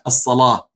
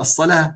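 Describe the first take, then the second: First: The L is pronounced heavy and emphatic. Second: The L is pronounced light and thin. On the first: This is the Moroccan reading style of Warsh. "إنهم يقولون الصلاة" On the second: This is the eastern reading style of Hafs. "لأن اللام عندنا مرققة"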